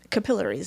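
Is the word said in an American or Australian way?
Australian. It is said with an Australian pronunciation. "I talk about um, capillaries"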